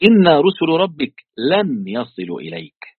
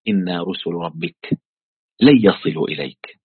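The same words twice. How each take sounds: First: Higher, slow, emphatic recital of the verse. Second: Low, slow recital of the verse. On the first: Teacher repeating the angels' words in wonder, emphatic slow recital. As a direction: draw out "إنا رسل ربك لن يصلوا إليك" with weight, pitched up. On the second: Teacher quoting the angels to Lot, low measured recital. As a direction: recite it low, slowing on the first words. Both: Retold or imitated.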